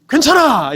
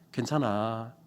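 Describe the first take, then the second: First: It is said loudly like an exclamation. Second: It ends flat like a calm statement.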